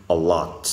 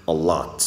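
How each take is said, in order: No difference in how they are said.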